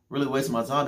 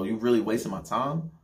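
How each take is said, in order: First: Pitched higher, disbelieving echo; incredulous repeat. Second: Disbelieving, half-complaining ask; annoyed question. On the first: Repeating it to his girlfriend, higher and incredulous. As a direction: push the disbelief up. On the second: To his girlfriend who wants to leave, annoyed asking. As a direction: let the annoyance creep in. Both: Retold or imitated.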